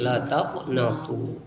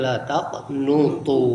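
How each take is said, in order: First: The vowel after the n is a. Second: The vowel after the n is u. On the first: "bisa juga dibaca dengan fathah nun" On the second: "didomahkan nunnya"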